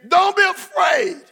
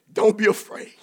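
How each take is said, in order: First: Don't be afraid, belted high and slow; preacher booming comfort to the expectant; shouted reassurance. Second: Said in the usual way. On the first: Shown as a demonstration. Preacher shouting don't be afraid to the congregation. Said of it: "Say it again". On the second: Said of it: "The Holy Ghost said to tell you".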